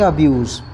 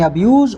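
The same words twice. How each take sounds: First: The word ends with a hissing s sound. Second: The word ends with a buzzing z sound. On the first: The word is used as a noun. "जब ये noun है तो इसको पढ़ेंगे अब्यूज़" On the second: The word is used as a verb. "जब ये verb है तो इसको पढ़ेंगे अब्यूज़"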